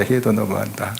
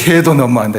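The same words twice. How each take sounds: First: Much softer, bitter mutter under the breath; muttered to himself. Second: Exasperated outburst. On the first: Pastor voicing Moses's inner grumble, quiet and bitter. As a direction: say it quietly as if to yourself. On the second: Pastor voicing Moses's anger at the people, exasperated. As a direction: blurt it out like someone pushed too far. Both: Retold or imitated. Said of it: "그런 심정이었던 것 같아요".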